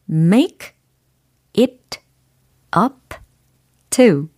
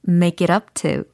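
First: Each word is said separately with small breaks. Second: The words run together quickly as one unit. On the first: "먼저 개별적으로 띄어서 발음을 해드렸어요" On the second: "그러면 좀 빨리 붙여볼게요"

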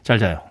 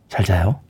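First: It is said briskly and lightly. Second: It is said slowly and softly.

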